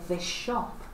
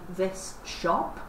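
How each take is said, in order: First: The two words blend into one sound. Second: Each word is said separately and carefully. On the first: The speaker is talking casually to a friend. "You would blend it when you were talking to a friend" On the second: The speaker is giving a formal talk. "if you were giving a formal talk, you might say"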